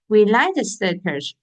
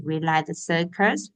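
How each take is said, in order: First: "We like the circus" stated with a firm fall and extra weight on "like"; teacher showing the line ends with a period; falling statement tune. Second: "we like the circus" read with a rise on "circus" as if asking; teacher testing whether the line is a question; rising question tune. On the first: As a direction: land "circus" down flat as a full stop. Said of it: "is the period". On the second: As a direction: lift the end of "circus" like a question. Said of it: "is a question?". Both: Shown as a demonstration.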